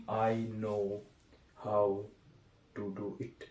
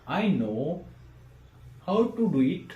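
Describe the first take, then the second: First: "I know" ... "how" ... "to do it" broken apart with long pauses; choppy word by word. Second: I know how to do it, said as one smooth phrase; phrased as one group. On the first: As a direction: read it word by word, each piece dropping low and soft. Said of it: "message में कहीं ना कहीं changes आ जाएगा". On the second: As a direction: read "I know how to do it" as a single lively word group. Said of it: "ये कहूँगा तो अच्छा लगेगा". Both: Shown as a demonstration.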